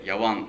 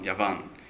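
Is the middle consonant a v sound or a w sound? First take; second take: w; v. First: The middle consonant is a w sound. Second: The middle consonant is a v sound. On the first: "V の発音はW になりやすいので" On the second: "V でヤバンって言う"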